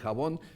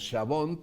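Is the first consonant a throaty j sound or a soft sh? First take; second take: throaty j; soft sh. First: The first consonant is a throaty j sound. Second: The first consonant is a soft sh sound. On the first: This is the modern pronunciation. "pasó a ser jabón" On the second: This is the old Castilian pronunciation. "se oía como sh"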